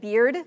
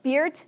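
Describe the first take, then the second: First: The word ends in a voiced d sound. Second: The word ends in a voiceless t sound.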